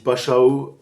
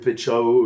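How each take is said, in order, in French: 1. La première voyelle se prononce comme 'a'. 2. La première voyelle se prononce comme 'e'. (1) "ça se dit Pachao" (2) "je disais Pechao"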